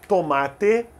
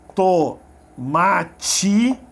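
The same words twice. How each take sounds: First: The final t is a plain t sound. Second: The final t sounds like tch. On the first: "alguns falam tomate" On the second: "com som de tch"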